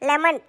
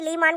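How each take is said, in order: First: It is said as 'le-man' with a short first vowel. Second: It is said as 'lee-maan' with a long first vowel. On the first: The speaker calls it right. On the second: The speaker calls it wrong. "லீமான் கிடையாது"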